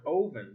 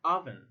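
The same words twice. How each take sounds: First: "oven" with a long oh; wrong vowel. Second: "oven" with a short uh; short uh vowel. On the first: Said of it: "not oven". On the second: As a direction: say "oven" like uvven. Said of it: "but rather". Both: Shown as a demonstration.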